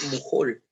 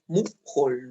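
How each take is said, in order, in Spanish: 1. El acento está en la última sílaba. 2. El acento está en la primera sílaba. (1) "Mujol es aguda también" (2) "porque no es mujol"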